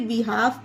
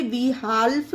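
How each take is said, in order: First: "बिहाफ" with no L before the F; "बिहाफ", vowel straight into F; silent L. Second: "बिहाल्फ" with the L voiced before F; "बिहाल्फ", L clearly heard before final F; sounded L. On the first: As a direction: say "बिहाफ", dropping the L. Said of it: "इसे बिहाफ पढ़ेंगे". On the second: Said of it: "इसे बिहाल्फ नहीं पढ़ना". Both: Shown as a demonstration.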